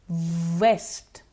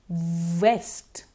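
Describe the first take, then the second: The two takes are said the same way.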